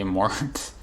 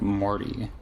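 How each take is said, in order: First: The name ends on a consonant, no vowel. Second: The name ends with a spoken final vowel. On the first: "the E is just like uh decorative" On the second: "if you're meant to say like Morty"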